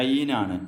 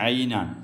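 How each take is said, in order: Both takes have the same delivery.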